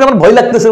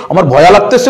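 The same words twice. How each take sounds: First: Said in the usual way. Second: ভয়া with an extra "a" on the end; wrong form shown. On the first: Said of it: "আমরা কি বলি". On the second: Shown as a demonstration. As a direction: say ভয়া as two syllables, bhoy-a. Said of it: "ভয় বলি না ভয়া বলি".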